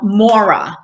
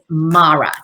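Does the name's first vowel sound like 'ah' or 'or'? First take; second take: or; ah. First: The first vowel sounds like 'or'. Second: The first vowel sounds like 'ah'. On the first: This is the speaker's East Coast way of saying it. The speaker calls it wrong. "I call myself Mora, and that's actually not my name, but that's how I say it" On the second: This is the proper form of the name. The speaker calls it right. "the proper pronunciation of my name is Mara"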